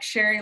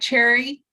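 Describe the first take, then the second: First: The name begins with a sh sound. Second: The name begins with a ch sound. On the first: The speaker calls it right. "but it's pronounced like sherry, like the wine" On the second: The speaker calls it wrong. "It's looks like cherry"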